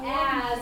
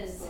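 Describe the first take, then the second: First: The word is said in its full form. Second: The word is shortened to a weak form. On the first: "instead of saying something like as" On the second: "it sounds more like is"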